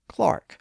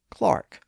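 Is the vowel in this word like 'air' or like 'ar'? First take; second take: ar; ar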